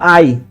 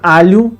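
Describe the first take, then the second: First: The word ends in a simple y glide. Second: The word has a palatal lh consonant. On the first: This is the non-standard form. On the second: This is the standard form.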